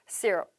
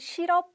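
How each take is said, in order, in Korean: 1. 영어식 소리와 강세로 발음해요. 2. 한국식 음절과 소리로 발음해요. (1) "syrup, syrup. 한 번 더 syrup" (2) "내가 생각하는 시럽 이런 느낌이 아니라"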